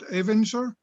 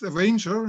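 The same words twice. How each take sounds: First: The word is said with German-style pronunciation. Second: The word is said with English pronunciation. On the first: The speaker calls it wrong. "not Avenger. Germans always like to say Avenger" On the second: The speaker calls it right. "pronounced Avenger"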